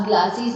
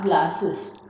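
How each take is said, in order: First: "glassies" with a wrong ee sound added; wrong plural. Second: "glasses" ending in a short iz; correct plural. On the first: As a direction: say "glassies" as the mistake, not "glasses". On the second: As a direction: say "glasses", GLAS-iz, cleanly. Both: Shown as a demonstration. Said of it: "nahi glass".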